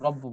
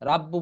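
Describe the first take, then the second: First: The r is pronounced heavy and thick. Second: The r is pronounced light and thin. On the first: The speaker calls it right. "মোটা করে পড়তে হবে" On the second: The speaker calls it wrong. "রাব্বু পড়া যাবে না"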